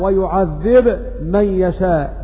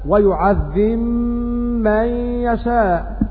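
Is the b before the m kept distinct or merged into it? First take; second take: kept; merged. First: The b is pronounced clearly before the m. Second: The b merges into the following m. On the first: "بالجزم وإظهار الباء مع الميم" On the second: "بالجزم والإدغام، فيقرؤون هكذا"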